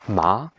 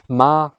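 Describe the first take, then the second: First: The syllable is said with the second tone. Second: The syllable is said with the first tone.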